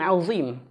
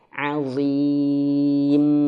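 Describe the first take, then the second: First: The middle consonant is a plain z sound. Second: The middle consonant is a thick th-like sound. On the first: The speaker calls it wrong. "Jangan azim" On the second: The speaker calls it right. "lidahnya digigit. Seperti huruf dha"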